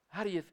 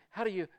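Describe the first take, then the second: The two takes are said the same way.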